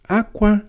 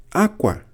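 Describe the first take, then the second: First: "Akwa" high and loud; akwa for cry. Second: "Akwa" with a clear falling tone; akwa for cloth. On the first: Teacher repeating the tone of akwa, to cry. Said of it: "pụtara ịkwa akwa". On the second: Teacher repeating the tone of akwa, cloth. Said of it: "pụtara cloth". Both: Shown as a demonstration.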